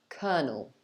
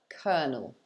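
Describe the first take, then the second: Both takes have the same delivery.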